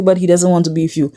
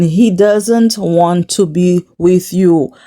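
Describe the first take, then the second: First: Said in the usual way. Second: Slow, deliberate "He doesn't want to be with you"; emphatic repeat. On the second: Real, not acted. Vlogger drums the friend's advice into her, slow and emphatic. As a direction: spell out "He doesn't want to be with you" slowly, word by word.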